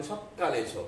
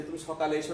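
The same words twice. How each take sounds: First: সকালে said as sokkale with a doubled k; সকালে with a held double k for emphasis; emphatic doubling. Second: Said in the usual way. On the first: Shown as a demonstration. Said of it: "তার মানে বিষয়টাতে গুরুত্ব দেওয়া হচ্ছে". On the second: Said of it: "না বলে".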